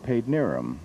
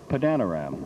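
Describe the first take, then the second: First: The name is said in a shortened local form. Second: Every spelled syllable of the name is pronounced. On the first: "That's how we pronounce it, how the people there pronounce it" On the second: "the way it's spelled, as one young announcer on the station I worked in that time said"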